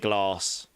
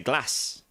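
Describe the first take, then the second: First: It is said in a southern English accent. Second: It is said in a northern English accent.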